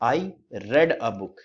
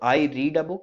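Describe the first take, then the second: First: 'Read' is said with a short e vowel. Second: 'Read' is said with a long ee vowel. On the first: The reading happened in the past. "यानी कि past में बात कर रहे हैं" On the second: The reading happens in the present. "यानी present में बात कर रहा हूं"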